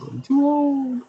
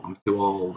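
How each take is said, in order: First: Very high, slow whiny squeak; squeaky old voice. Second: Said in the usual way. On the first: Pretend. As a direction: whine it in a tiny high voice. Repeats complaint in put-on voice.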